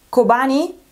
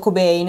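First: The name has three syllables, ending in 'ni'. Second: The name has two syllables, ending in 'bain'. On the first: The speaker calls it right. "Dovrebbe pronunciarsi Kobani" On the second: The speaker calls it wrong. "io ho sempre detto [name]"

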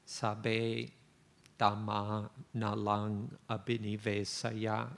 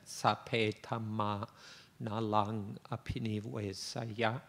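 First: The phrase is said in plain Pali pronunciation. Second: The phrase is said with a Thai accent. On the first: "I'll give you the words in Pali first" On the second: "in a Thai accent"

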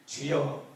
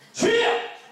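First: It is said quietly and gently. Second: It is said loudly and forcefully.

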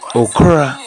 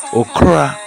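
First: It is said quickly with two syllables. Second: The same.

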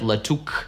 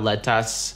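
First: The second syllable ends in a 'k' sound, 'uk'. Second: The second syllable has an open 'a' vowel, 'as'. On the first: "никакого «к» здесь нет" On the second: "никакого тут «а»"

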